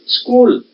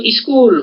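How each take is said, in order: First: Said in the usual way. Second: स्कूल said "iskool", with an i before the s; स्कूल as "is-kool", extra opening vowel; Punjabi-style pronunciation. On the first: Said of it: "जैसे हमारे पर". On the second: Shown as a demonstration. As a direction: put a short i in front of स्कूल. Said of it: "Punjab की तरफ देखोगे तो".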